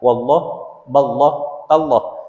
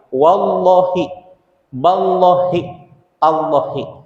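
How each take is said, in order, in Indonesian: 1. Setiap kata berakhir dengan konsonan, tidak ada vokal di akhir. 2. Setiap kata berakhir dengan vokal i yang pendek. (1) "menjadi sukun" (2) "melafadzkan kasroh di akhir kalimat"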